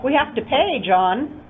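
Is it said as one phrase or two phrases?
two phrases. It is split into two separate phrases.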